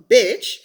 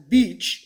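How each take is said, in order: First: Bitch with a short i; correct pronunciation. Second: Beach with a long ee; old mispronunciation. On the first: Showing the word she practised, bitch with short i. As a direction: clip the vowel of bitch to "ih". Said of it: "instead of bitch". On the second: Recalling how she used to say it, beach with long ee. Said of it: "when I used to say it as". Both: Shown as a demonstration.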